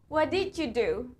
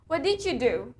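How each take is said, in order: First: Did you is reduced and run together. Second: The same.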